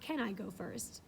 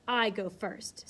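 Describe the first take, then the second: First: Said in the usual way. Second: Slow, grave I go first; resolute declaration. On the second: A narrator's reading. Miss Ingram volunteering bravely, slow and solemn. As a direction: announce it like a soldier storming a breach. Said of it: "in a tone which might ... forlorn hope".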